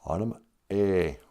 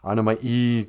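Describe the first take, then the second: First: The last vowel sounds like 'ay'. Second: The last vowel sounds like 'ee'. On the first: The speaker calls it right. "Remember those E's sound like A's" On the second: The speaker calls it wrong. "embarrassing me by saying Anima E"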